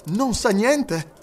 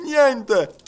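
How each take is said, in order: First: High, drawn-out, keen question; lively, eager question. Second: High, loud one-word exclamation; emphatic answer. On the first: Detective asking whether the master knows, lively. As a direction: ask it slowly but with vivacity. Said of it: "chiese Fix con vivacità". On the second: Servant assuring detective his master knows nothing, emphatic. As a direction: fire back an emphatic denial. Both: A narrator's reading.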